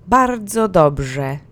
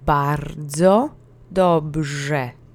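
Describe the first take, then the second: First: It is said at full speed with energy. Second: It is said at a moderate, calm pace. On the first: "And last time with real-time oomph" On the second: "Now let's speed it up and put both words together"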